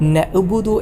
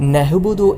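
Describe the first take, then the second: First: The middle consonant is a plain glottal stop. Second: The middle consonant is a breathy h sound. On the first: "ഹംസ ആയിട്ടും" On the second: "ഹ ആയിട്ടൊക്കെ"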